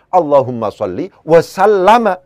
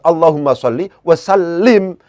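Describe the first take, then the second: First: The last word ends with the syllables -lama. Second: The last word ends with the syllable -lim. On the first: The verb is read as a past-tense form. The speaker calls it wrong. "menjadi salah kalau seandainya" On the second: The verb is read as a command form. The speaker calls it right.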